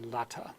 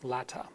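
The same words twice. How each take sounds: The two takes are said the same way.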